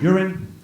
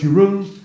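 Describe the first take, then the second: First: The name is said to sound like 'urine'. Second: The name is said in its own form. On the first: The speaker calls it wrong. "people often pronounce it as uh, urine" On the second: The speaker calls it right. "it's Jeroen"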